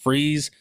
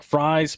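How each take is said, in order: First: The vowel sounds like the one in 'freeze'. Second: The vowel sounds like the one in 'fries'. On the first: This is how others have said it. "I've heard it pronounced Freeze, like Mister Freeze from Batman" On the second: This is how the spelling looks. "it looks like Fries"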